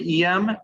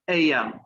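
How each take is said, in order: First: The first letter is said like 'E'. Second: The first letter is said like 'A'. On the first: The speaker calls it wrong. "I think you said seven E M" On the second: The speaker calls it right. "it's A M"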